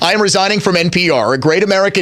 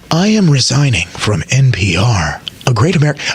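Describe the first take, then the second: First: It is read in his ordinary speaking voice. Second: It is read in a put-on radio-announcer voice. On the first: "I'm not actually going to do the voice" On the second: "I'm doing the voice"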